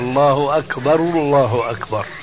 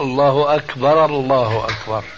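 First: The linking vowel is a clear u sound. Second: The linking vowel is neither a clear u nor a. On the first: The speaker calls it right. "وصوابها ... مضمومة" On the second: The speaker calls it wrong. "كثير مؤذنين بيقولوا"

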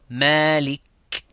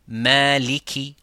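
First: The word ends on a bare consonant. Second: The word ends with a short vowel. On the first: "par un soukoun" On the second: "avec la haraka qui sont les voyelles ou voyelles courtes"

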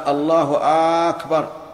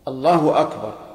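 First: The opening vowel of Akbar is lengthened. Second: No vowel is lengthened anywhere. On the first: The speaker calls it wrong. "ولا في الثاني" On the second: The speaker calls it right. "يشترط أن تكون بهذا اللفظ"

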